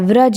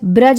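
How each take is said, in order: First: The word begins with a v sound. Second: The word begins with a b sound. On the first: The speaker calls it right. "व्रज होता है" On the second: The speaker calls it wrong. "ब्रज नहीं होता है"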